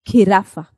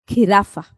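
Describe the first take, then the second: Both takes have the same delivery.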